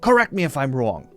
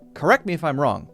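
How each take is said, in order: First: It is said in a Brooklyn accent. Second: It is said in the speaker's usual accent.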